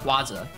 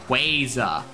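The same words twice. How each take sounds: First: The 'qua' is said like 'kwah'. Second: The 'qua' is said like 'kway'. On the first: The speaker calls it wrong. "It's not Quaza" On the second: The speaker calls it right. "It's Quaza, like Quasar"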